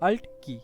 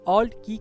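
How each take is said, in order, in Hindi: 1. Alt में 'ant' की तरह खुला, बिना गोल हुआ स्वर है। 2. Alt में 'all' की तरह गोल स्वर है। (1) "सही उच्चारण इस की का हम देखें, तो इसे हम अल्ट की कहते हैं" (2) "आमतौर पे हम सभी इसे ऑल्ट की कहते हैं"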